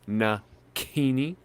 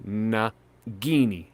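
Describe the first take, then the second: First: The middle consonant is a voiceless k sound. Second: The middle consonant is a voiced g sound. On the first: "the C is just a G without vocalization" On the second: "I'm pronouncing it in the exact same place"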